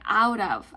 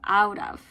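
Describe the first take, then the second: First: The two words are linked together. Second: The same.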